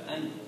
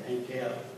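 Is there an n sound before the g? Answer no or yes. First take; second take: yes; no. First: An n sound comes before the g. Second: There is no n sound before the g. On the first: "in pronunciation comes out as angel" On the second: "your lexicon will probably say pronounce that Hegel"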